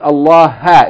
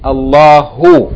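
First: The word ends without a final u vowel. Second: The word ends with a final u vowel. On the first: The speaker calls it wrong. "it says Allah ha" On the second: The speaker calls it right. "It should be Allahu. With Dhamma"

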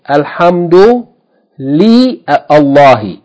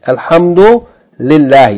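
First: The li is said apart before a full Allahi. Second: The li merges with Allahi into lillahi. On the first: The speaker calls it wrong. "you don't say" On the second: The speaker calls it right. "you just say Lillahi. The aleph is omitted"

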